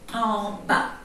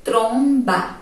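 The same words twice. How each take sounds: First: Nose blocked. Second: Said in the usual way. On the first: Shown as a demonstration. Teacher showing students a blocked-nose Tromba, denasal. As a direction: say Tromba with the nose pinched shut, the nasal vowel gone. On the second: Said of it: "Som normal".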